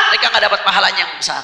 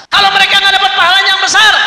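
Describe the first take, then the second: First: Said in the usual way. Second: High, loud commander's cry; acted loud repeat. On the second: Preacher voicing Iblis explaining lost reward, high loud shout. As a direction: ring the reason out to the troops.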